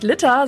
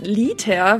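First: "Liter" with a short i, like Litter; short vowel. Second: "Liter" with a long, drawn-out ee; long vowel. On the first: Northerner showing her own word, "Liter" with short i. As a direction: say "Liter" clipped to a short first vowel, as if double t. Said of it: "scheinbar sagt man nicht Liter". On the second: Showing the supposedly correct word, "Liter" with long i. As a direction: stretch the first vowel of "Liter" slowly, Lee-ter. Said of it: "Das braucht viel zu viel Zeit". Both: Shown as a demonstration.

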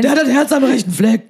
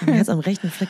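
First: High, loud rowdy fan bawl; bawling football fan. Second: Laughing. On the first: Pretend. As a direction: bellow it from the terraces. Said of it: "damit ihr mich versteht". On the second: Real, not acted. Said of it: "das klingt mir auch komisch".

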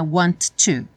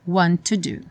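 First: "want to" with both t's said fully, wrong; careful "want to". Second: "want to do" with one t, run together; "want to do" joined with a single t. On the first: Teacher shows the wrong way: full "want to". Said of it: "não é want to". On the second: Teacher shows the right way: "want to do" with one t. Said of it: "só tem um som de T". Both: Shown as a demonstration.

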